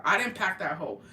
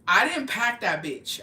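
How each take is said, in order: First: Said in the usual way. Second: "didn't" hit hard and loud, said slowly; emphatic denial. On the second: Real, not acted. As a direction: insist you're innocent, slow and punchy. Denying blame emphatically.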